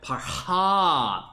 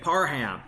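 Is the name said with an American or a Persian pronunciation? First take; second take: Persian; American. First: The name is said with Persian-style sounds. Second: The name is said with American English sounds. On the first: The speaker calls it right. "whereas I know it's like Parham" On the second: The speaker calls it wrong. "I know I'm pronouncing it wrong"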